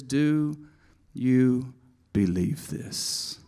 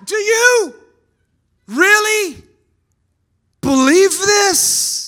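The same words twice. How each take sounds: First: Quiet, slow asking of you believe this; soft question. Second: High, loud, slow with really stretched; shouted challenge. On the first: Shown as a demonstration. Preacher softly reading Jesus' question. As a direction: ask it gently and slowly. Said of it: "He says". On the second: Real, not acted. Preacher shouting the question at the congregation. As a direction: challenge them at full voice. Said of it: "repeats the question to congregation".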